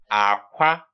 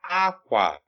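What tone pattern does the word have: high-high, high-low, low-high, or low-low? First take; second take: low-high; high-low. First: The first syllable is low, the second high. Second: The first syllable is high, the second low. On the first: It means egg. "the next one is actually low tone, high tone" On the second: It means cloth. "High tone, low tone"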